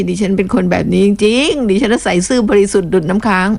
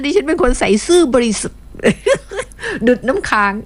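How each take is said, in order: First: Straight-faced mock insistence; mock sincere. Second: Reading a listener's boast, breaking into giggles; laughing while reading. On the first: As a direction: pretend to swear it's true. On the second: Retold or imitated. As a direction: giggle through the words. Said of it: "เขียนว่าแบบเนี้ย ดิฉันอ่านตาม".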